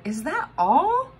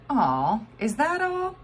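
First: High, slow, let-down question; unimpressed stranger. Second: High, let-down voice of a bystander; a man unimpressed by the spit; disappointed stranger. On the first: Stranger at the geyser, slow and let down. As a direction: drag out the disappointment. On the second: Stranger at the geyser, let down and whiny. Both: A narrator's reading.

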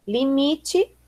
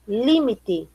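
First: Said in the usual way. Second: "límite" stressed on LI; Spanish stress. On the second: Shown as a demonstration. Teacher reading the list, "límite" with Spanish stress on LI. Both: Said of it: "diferença entre as palavras heterotônicas".

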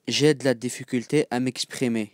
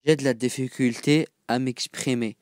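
The two takes are said the same way.

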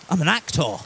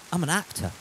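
First: Fuller, stronger theatrical delivery; theatrical actor. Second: Said in the usual way. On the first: Pretend. Streamer joking to chat he's an actor, theatrical. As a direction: announce it like a stage actor. Repeats line more theatrically.

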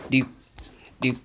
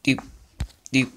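No difference in how they are said.

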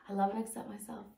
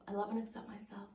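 First: Said in the usual way. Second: Whispered fast, almost to herself. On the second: Retold or imitated. Client whispering affirmations at the mirror, a whisper.

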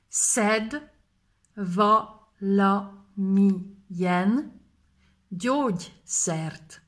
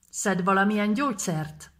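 First: Each word drawn out, x0.5 at the end; slowly split. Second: Said in the usual way. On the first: Shown as a demonstration. Teacher breaks the phrase apart for students, slowly. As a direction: stretch every word for the learners. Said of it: "split into words". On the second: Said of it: "repeat at normal pace".

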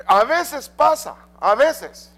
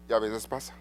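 First: High, loud, drawn-out a veces pasa; emphatic. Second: Lower, softer y a veces pasa; quiet aside. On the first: Preacher to congregation, first a veces pasa called out high and loud. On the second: Preacher to congregation, second y a veces pasa dropped low and soft. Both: Acted. Preacher repeats phrase, contrasting takes.

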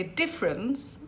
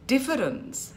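First: DIFFERENCE squashed to DIF-rence; inarticulate. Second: DIFFERENCE in three syllables, DIF-fer-ence; vowel sounded. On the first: Teacher showing a careless example, inarticulate. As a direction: drop the middle E in DIFFERENCE. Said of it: "I am being inarticulate". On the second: Teacher showing the full word, vowel sounded. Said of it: "has an E there". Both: Shown as a demonstration.

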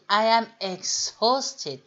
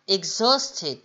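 First: I am exhausted said slowly, weight on the haust syllable; slow model line with haust stressed. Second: Exhausted with the weight on haust; Exhausted, middle syllable stressed and falling. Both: Shown as a demonstration. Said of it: "l'intonation sur la, la syllabe du milieu".

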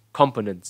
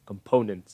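First: Component punched on COM, falling after; wrong first-syllable stress. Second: Component with the weight on the middle syllable; com-PO-nent, stress the "po". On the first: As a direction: hit COM hard in Component. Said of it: "là sai". (Component, nhấn mạnh âm đầu "com") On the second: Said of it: "Mới đúng". (Component, nhấn vào âm giữa "po") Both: Shown as a demonstration.

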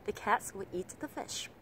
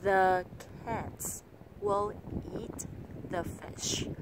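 First: CATS, EAT, FISH stressed, "will" and "the" short; connected phrase with "the" and "will" squeezed small; three-beat stress. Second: Every word full, THE and WILL as heavy as CATS; word by word with long gaps; six separate beats. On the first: Teacher modelling native rhythm, stressing three key words. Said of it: "nhấn vào ba từ quan trọng nhất". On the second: Teacher showing the mistaken even reading, slow and separated. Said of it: "câu này nói trong sáu nhịp". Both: Shown as a demonstration.

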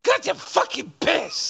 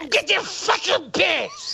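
First: High mocking echo of her complaint; mocking imitation. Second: High, slow mocking echo of her whine; mocking imitation. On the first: Host repeating the streamer's line, high mock echo. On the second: Host mocking the streamer's complaint, high slow mimic. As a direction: parrot her words back slowly and high. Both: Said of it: "Listen to the way she says this".

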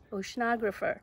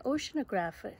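First: "oceanographer" said as o-shun-OG-ra-fer; corrected pronunciation. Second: "oceanographer" said as ocean-o-GRAPH-er; mispronunciation. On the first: Teacher correcting a stumble, "oceanographer" said as o-shun-OG-ra-fer. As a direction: stress "oceanographer" on the OG syllable. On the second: Teacher stumbling while reading, "oceanographer" mispronounced as ocean-o-GRAPH-er. Stumbles, then corrects the word. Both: Real, not acted.

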